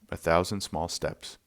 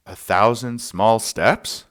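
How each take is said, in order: First: Said in the usual way. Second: "A thousand small steps?" slow and higher, rising like a question; "A thousand small steps?" drawn out with a questioning rise. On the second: Retold or imitated. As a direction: offer "A thousand small steps?" as an unsure guess, lifting at the end. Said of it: "He paused and said".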